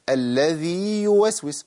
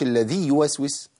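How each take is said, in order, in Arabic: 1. يُمَدّ حرف المد مدّه الكامل. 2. يُقصَر حرف المد ويتصل بالحرف الذي بعده.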